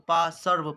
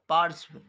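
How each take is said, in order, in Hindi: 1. r की ध्वनि पूरे s के बाद आती है। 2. r की ध्वनि आधे s से पहले आती है। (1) "पा सर्व पढ़ देगा। तो गलती है" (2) "तो इसको पढ़ेंगे पार्श्व।"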